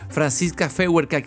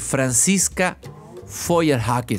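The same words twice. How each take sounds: First: The name is said with Spanish pronunciation. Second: The name is said with German pronunciation. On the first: "Algunos la conocen como" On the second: "sería en alemán casi perfecto"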